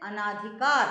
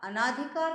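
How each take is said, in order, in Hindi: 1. पहले अक्षर के बाद वाला स्वर दीर्घ है। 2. पहले अक्षर के बाद वाला स्वर दीर्घ है।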